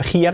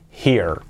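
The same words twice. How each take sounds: First: HERE as "jiar", two vowels and a hard H; wrong demo of here with an added A; mispronounced here. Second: HERE as "hir", no A before the R; correct here. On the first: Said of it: "no tiene que ser here". (here mal dicho, "jiar") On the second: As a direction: model here in one smooth syllable. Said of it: "tiene que ser here". (here bien dicho, "jir") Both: Shown as a demonstration.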